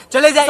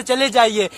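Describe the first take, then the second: First: चले जाइए said louder and higher, sharp; angry dismissal. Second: Said in the usual way. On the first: Acted. Son ordering his father out of the office, angry.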